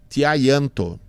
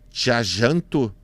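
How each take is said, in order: First: The name is pronounced the Spanish way. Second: The name is pronounced the Portuguese way. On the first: "se fosse em espanhol" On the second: "se for portuguesado"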